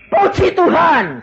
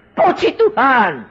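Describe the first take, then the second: First: Much higher and louder, slow ecstatic cry; shouted praise. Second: Higher, louder, slow cry of praise; shouted praise. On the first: Dying man shouting praise to God, loud and slow. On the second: Dying man repeating his praise, a loud slow cry. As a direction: call praise upward with everything left. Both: Retold or imitated. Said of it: "tak terakhir saya teriak".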